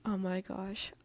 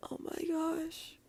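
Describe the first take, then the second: First: Said in the usual way. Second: Higher, slow, breathless whisper of delight; whispered squeal. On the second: Real, not acted. Reader gushing over the fluffy story, whispered and high. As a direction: gush over the sweetness in a hushed voice.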